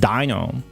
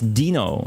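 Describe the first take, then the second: First: The first syllable sounds like dye. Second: The first syllable sounds like dee. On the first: This is the common English way of saying it. The speaker calls it wrong. "It's not Dino" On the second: This is the form the game's makers use. The speaker calls it right. "It rhymes with Gino"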